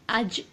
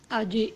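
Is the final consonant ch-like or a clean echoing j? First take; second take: ch-like; clean j. First: The final consonant has a ch-like hiss. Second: The final consonant is a clean echoing j. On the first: The speaker calls it wrong. "like you have a ch, uh, ch sound over mm, Jim. It's not correct" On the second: The speaker calls it right. "There will be no sound of ch with Jim"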